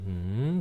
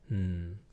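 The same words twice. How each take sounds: First: The pitch rises upward through the syllable. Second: The pitch stays flat without much tone. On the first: What is it? "with a rising tone, like hmm, going up" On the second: I agree. "without much of a tone, just hmm"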